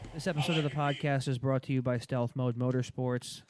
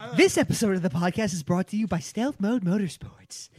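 First: It is read in a flat monotone. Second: It is read with lively interest.

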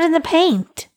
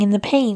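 First: The final T of paint is pronounced. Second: The final T of paint is dropped. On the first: The speaker calls it right. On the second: The speaker calls it wrong.

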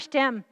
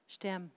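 First: It is said in an arrogant, mocking tone. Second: It is said in a gentle, loving tone.

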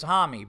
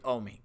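First: The name begins with an h sound. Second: The name begins with a vowel sound. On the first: The speaker calls it wrong. "oh, it's an H, so it's Hami" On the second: The speaker calls it right. "but it's actually Omi"

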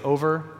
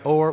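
First: The word is said in two full syllables. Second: The word is squeezed into one syllable. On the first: "we don't say over" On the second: "Like or"

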